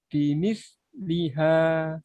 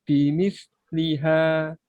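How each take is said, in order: The two takes are said the same way.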